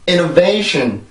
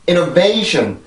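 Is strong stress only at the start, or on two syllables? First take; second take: two syllables; two syllables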